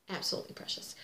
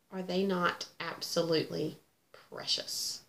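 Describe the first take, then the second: First: Whispered echo. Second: Said in the usual way. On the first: Real, not acted. Repeating her praise of the gnome chart, whispered. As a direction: whisper "Absolutely precious" softly as an echo.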